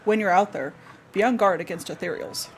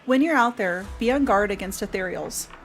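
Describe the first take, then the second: First: It is read in a deeper, more manly voice. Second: It is read in an ordinary, unaltered voice. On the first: The speaker calls it right. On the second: The speaker calls it wrong.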